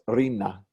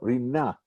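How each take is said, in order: First: The stress is on the first syllable. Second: The stress is on the last syllable. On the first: It is a person's name. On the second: It is the word for joyous song. "with the stress on the second syllable, the last syllable"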